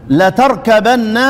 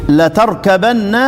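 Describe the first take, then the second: The two takes are said the same way.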